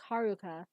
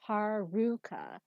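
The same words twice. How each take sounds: First: The stress is on the first and third syllables. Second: The stress is on the second syllable. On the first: The speaker calls it right. "because it's ha, and then the ru is less emphasized, and ka is emphasized again" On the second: The speaker calls it wrong. "where you emphasize the second one"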